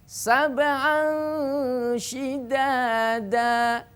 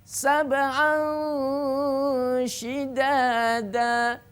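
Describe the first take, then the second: Both takes have the same delivery.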